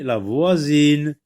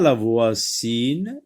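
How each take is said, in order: First: The middle consonant is a buzzing z sound. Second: The middle consonant is a hissing s sound. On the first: The speaker calls it right. "La lettre S se lit Z ici" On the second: The speaker calls it wrong. "on ne dit pas"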